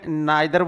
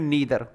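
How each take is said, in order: First: The first vowel sounds like 'eye'. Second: The first vowel sounds like 'ee'. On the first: "strong version में नाइदर बोलते हैं" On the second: "week में नीदर"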